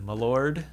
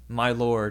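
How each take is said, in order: First: It is said in a lowborn, reduced way. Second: It is said in a highborn, careful way.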